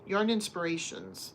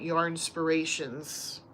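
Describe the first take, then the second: First: It is said with an 'in' sound. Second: It is said without an 'in' sound. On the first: "they were calling it" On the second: "I was always saying it"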